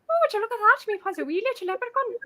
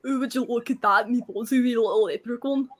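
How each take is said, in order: First: High-pitched put-on northern Irish accent. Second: Put-on Scottish brogue; Scottish accent. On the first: Guest shows the hosts her high-pitched Irish accent. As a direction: lift the voice into an Irish lilt. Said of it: "then the Irish is like". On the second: Guest shows hosts her party-piece line in a Scottish accent. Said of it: "give us the Scottish accent". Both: Shown as a demonstration.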